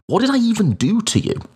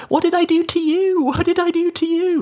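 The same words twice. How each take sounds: First: High, fast shouted outburst; shouting. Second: High, taunting sing-song; mock it like a playground bully, very high. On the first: Retold or imitated. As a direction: burst out at them, pitched high. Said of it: "I remember just shouting that at them". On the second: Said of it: "repeating it back in this sort of sing-song voice".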